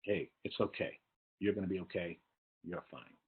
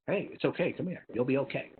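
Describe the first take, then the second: First: Gentle, softer reassurance, trailing off; soft sympathy. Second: Put-on high, bright soothing to an upset child; sympathetic comfort. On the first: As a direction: murmur the comfort kindly. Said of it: "show sympathy". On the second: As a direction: coo the comfort, a touch higher. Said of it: "because sympathy". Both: Shown as a demonstration.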